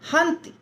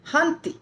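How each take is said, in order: Both takes have the same delivery.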